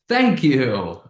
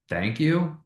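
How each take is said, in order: First: It is said with an excited, lively tone. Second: It is said with a questioning, uncertain tone. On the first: "That's exciting" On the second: "which is kind of questioning"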